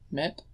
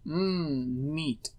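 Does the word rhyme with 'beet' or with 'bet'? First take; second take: bet; beet. First: The word has a short 'e' vowel. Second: The word has a long 'ee' vowel. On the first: This is the pronunciation from before the Great Vowel Shift. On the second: This is the modern pronunciation.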